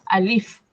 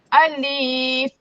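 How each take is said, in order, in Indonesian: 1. Vokalnya dibiarkan pendek. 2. Vokalnya dipanjangkan. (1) "Yang betul alif. Satu harakat sahaja" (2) "Tak boleh panjang. Alif. Salah"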